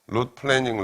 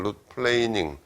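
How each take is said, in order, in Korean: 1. 모음이 'plan'의 모음과 같은 소리예요. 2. 모음이 'plain'의 모음과 같은 소리예요. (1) "룻 플래닝 이렇게 발음하는데 그건 틀렸고" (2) "플레인 어떤 평면이라는 플레인"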